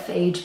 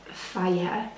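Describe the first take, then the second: First: The name is said as one syllable. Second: The name is said as two syllables. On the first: This is how the speaker used to say it. The speaker calls it wrong. "I used to call it" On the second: This is believed to be the proper pronunciation. The speaker calls it right. "I think it's pronounced"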